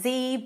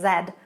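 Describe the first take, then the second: First: It is said with an American pronunciation. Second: It is said with a British pronunciation. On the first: "In American English, it's Z" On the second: "but in British English, it's Z"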